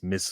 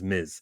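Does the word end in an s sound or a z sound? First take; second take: s sound; z sound. First: The word ends with a hissing s sound. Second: The word ends with a buzzing z sound. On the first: The speaker calls it wrong. "If you want to mispronounce her name, it's Miss Marvel. That's the wrong way to say it" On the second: The speaker calls it right. "The correct way to say the two-letter word is Miz"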